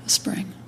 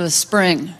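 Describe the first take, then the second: First: Very soft repeat of the title; hushed setup. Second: Said in the usual way. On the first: Acted. Comic about to imitate a spring, hushed setup. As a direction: announce it softly, as if concentrating hard.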